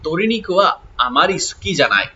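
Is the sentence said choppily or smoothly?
smoothly. The sentence flows smoothly in one even rhythm. The speaker calls it right.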